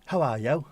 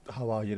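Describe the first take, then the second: First: Lilting Welsh accent, rising at the end. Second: Said in the usual way. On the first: Shown as a demonstration. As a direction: answer in a Welsh accent, pitched up. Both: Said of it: "how are you in Welsh".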